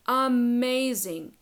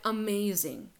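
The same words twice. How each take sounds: First: "Amazing" belted louder and drawn out slowly; emphatic "Amazing". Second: Said in the usual way. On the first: Real, not acted. Coach selling a vulnerable relationship, emphatic loud "Amazing".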